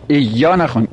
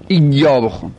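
First: "ایا" as eyyâ, with a short e at the start; reading to avoid. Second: "ایا" as iyyâ, with a full i at the start; preferred ishba reading. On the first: Teacher showing what not to read, "ایا" without ishba as eyyâ. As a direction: say "ایا" opening on e, not on a full i. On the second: Teacher showing the preferred reading, "ایا" with ishba as iyyâ. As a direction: open "ایا" on a clear, filled-out ee. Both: Shown as a demonstration.

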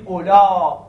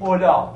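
First: اولا stretched loud on the ā, closed by hamza. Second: اولا with a plain open ending, no glottal stop; با قصر. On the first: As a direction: lengthen the final vowel of اولا, then stop it in the throat. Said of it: "بگید اولا با حالت مد". («اولا» کشیده با همزهٔ پایانی) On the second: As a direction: keep the end of اولا short and open. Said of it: "یعنی نمیگید اولا". («اولا» مقصور، بدون همزه) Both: Shown as a demonstration.

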